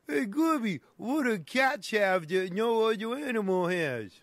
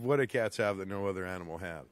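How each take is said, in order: First: High sidekick voice. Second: Low fast mumble. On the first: Comic sidekick voice asks riddle. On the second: Repeats riddle in another voice. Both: Acted.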